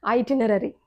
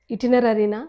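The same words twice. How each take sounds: First: ఐటినరీ opening on "eye"; long "ai" at the front of ఐటినరీ; corrected pronunciation. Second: ఇటినరీనా opening on short "i"; short first vowel in ఇటినరీనా; common mispronunciation. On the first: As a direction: say ఐటినరీ as eye-tin-erary. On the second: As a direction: say ఇటినరీనా starting "it-in". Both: Shown as a demonstration.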